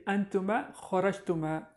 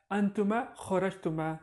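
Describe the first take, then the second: First: "antuma kharajtuma" spelled out slowly, each syllable clear; slow careful model. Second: Said in the usual way. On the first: Shown as a demonstration. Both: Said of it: "You can say antuma kharajtuma".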